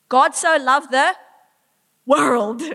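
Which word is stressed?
world. The stress is on 'world'. Everyone and anyone is loved. "Everyone, anyone and everyone made in his image, he loves"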